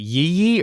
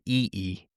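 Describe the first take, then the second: First: Each syllable begins with a y sound. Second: Each syllable begins directly with a vowel. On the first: The speaker calls it wrong. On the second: The speaker calls it right.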